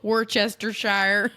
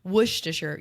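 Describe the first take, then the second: First: WORCESTERSHIRE sounded out as "wor-chester-shire"; spelled-out mispronunciation. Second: Worcestershire shortened to "WOOSH-tuh-sher"; careful Worcestershire, said "woosh-tuh-sher"; practiced pronunciation. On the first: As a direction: slowly say Worcestershire as "WOR-chester-SHY-er", amused. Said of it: "Why did they do that to us?". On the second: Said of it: "I practiced that". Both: Shown as a demonstration.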